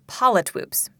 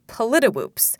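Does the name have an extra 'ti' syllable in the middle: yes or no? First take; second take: no; yes. First: No extra syllable is added mid-word. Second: An extra 'ti' syllable is added mid-word. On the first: The speaker calls it right. "but it's Politwoops" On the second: The speaker calls it wrong. "mispronounce as Politiwoops"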